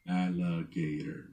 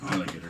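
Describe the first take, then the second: First: The word is said slowly. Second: The word is said fast.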